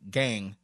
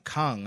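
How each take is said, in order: First: The word begins with a hard G sound. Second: The word begins with a K sound. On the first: "I see G-A-N-G, so I'm like, gang" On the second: "when I see K-A-N-G, I'm like, Kang"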